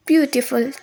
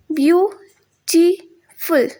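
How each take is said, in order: First: Said in the usual way. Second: ब्यूटीफुल slowly split into three, byu-ti-ful; syllable by syllable. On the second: Shown as a demonstration. Teacher showing the three syllables, syllable by syllable. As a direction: break ब्यूटीफुल into three beats with clear gaps. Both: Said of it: "तीन syllable बन रहे हैं".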